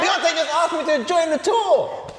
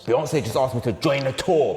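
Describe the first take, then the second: First: It is said in an excited tone. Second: It is said in an angry tone.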